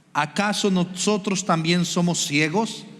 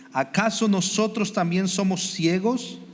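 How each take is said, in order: The two takes are said the same way.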